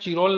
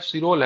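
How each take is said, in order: First: The name begins with a ch sound. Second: The name begins with an s sound. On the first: The speaker calls it wrong. "Valentine चिरोल नहीं है" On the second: The speaker calls it right. "Valentine सिरोल है"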